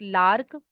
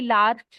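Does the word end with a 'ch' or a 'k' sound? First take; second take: k; ch. First: The word ends with a 'k' sound. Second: The word ends with a 'ch' sound. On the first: The speaker says it this way. "I pronounce it लार्क" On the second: Some other people say it this way. "कई लार्च भी बोलते हैं"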